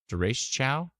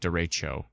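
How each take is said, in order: First: The final syllable ends with an 'ow' sound. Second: The final syllable ends with an 'oh' sound. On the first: "like the ending, I say chow" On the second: "cho without the W"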